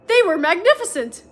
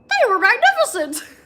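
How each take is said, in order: First: It is read in a normal speaking voice. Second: It is said in a squeaky cartoon-mouse voice.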